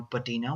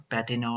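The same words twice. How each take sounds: First: "patina" with the middle syllable stressed, puh-TEE-na; "patina" tried as puh-TEE-na, unsure; alternative pronunciation of patina. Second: "patina" with the first syllable stressed, PAT-ee-na; "patina" tried as PAT-ee-na, unsure; first pronunciation of patina. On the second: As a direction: say "patina" as PAT-ee-na, quick and soft. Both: Shown as a demonstration. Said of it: "don't know the exact pronunciation".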